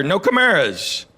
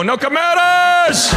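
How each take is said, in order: First: Said in the usual way. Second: Band shouting. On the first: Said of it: "And she goes". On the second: Retold or imitated. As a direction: belt "No Chimeras!" out like a band's big hook. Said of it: "And they go".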